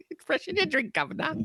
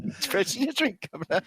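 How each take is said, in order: First: High, hammed-up Cockney quote; mock British accent. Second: A lighter echo of the Cockney line; half-hearted Simpsons Brit impression; poor British accent. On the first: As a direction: camp it up like a Simpsons Brit. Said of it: "make fun of your accent". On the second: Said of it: "do a poor imitation".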